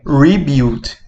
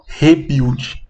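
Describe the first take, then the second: First: The prefix is said with an English-style sound. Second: The prefix is said with a Portuguese-style sound. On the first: The speaker calls it right. "é rebuild" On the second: The speaker calls it wrong. "a gente não fala rebuild"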